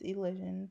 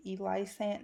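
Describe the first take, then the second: First: "Elysian" said ee-LIZH-un; correct pronunciation. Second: "Eli Sant" said ee-LIE-sant; mistaken pronunciation. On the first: Shown as a demonstration. Correcting people on the channel name, "Elysian" as ee-LIZH-un. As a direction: say "Elysian" with short i and soft zh. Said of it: "No, it's Elysian". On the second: Retold or imitated. Quoting how people misread the channel name, "Eli Sant" as ee-LIE-sant. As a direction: say "Eli Sant" with a long eye sound. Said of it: "people call it".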